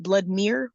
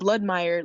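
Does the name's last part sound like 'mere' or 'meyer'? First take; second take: mere; meyer. First: The last part is a single syllable, like 'mere'. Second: The last part rhymes with vampire, like 'meyer'. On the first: The speaker calls it wrong. "people pronounce it Bloodmere when they see it and that is not what that says" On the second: The speaker calls it right. "Bloodmeyer like vampire"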